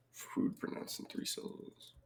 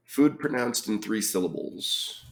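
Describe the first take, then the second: First: Whisper. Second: Said in the usual way. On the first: Real, not acted. Repeats clue under breath.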